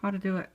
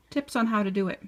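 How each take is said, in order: First: Talking around a needle held in the lips; slightly muffled, needle between lips; needle in mouth. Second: Said in the usual way. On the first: Real, not acted. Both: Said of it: "Sorry, I have a needle in my mouth".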